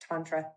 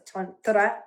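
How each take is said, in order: First: It is said with a Texas twang. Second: It is said with an Indian Sanskrit pronunciation. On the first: "I put a little Texas twang on it" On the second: "in Sanskrit in India is tantra"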